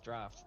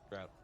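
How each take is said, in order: First: The vowel sounds like the one in 'laughed'. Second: The vowel sounds like the one in 'out'. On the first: The speaker calls it right. "It's his draft" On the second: The speaker calls it wrong. "not drought"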